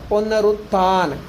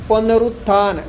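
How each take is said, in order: No difference in how they are said.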